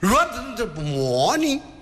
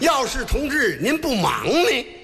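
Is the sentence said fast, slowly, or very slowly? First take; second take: fast; very slowly. First: It is said fast and slurred together. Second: It is said very slowly and clearly.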